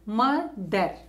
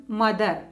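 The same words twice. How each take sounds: First: "mother" split as mo, pause, ther; syllable by syllable. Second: Said in the usual way. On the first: Shown as a demonstration. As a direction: break "mother" into two beats. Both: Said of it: "two syllable word".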